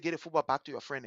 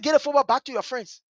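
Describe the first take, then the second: First: Low, soft instruction; quiet retold order. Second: Higher, firmer repeat of the order; insistent retold order. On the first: Big sister to little brother, quiet order. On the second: Big sister answering his "What?", insistent order. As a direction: repeat it with raised pitch, imitating insistence.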